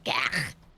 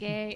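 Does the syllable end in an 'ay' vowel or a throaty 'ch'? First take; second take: throaty ch; ay vowel. First: The syllable ends in a throaty 'ch' sound. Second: The syllable is said with an 'ay' vowel. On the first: The speaker calls it right. "it's like gach" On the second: The speaker calls it wrong.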